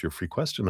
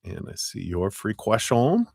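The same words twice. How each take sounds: First: Said in the usual way. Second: Put-on French accent. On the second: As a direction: put on a playful, not very good French accent. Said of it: "like, my French accent".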